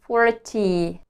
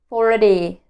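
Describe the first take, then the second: First: The t is a crisp t. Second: The t is a soft flap. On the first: The speaker calls it wrong. "Instead of saying forty" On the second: The speaker calls it right. "I learned to say forty"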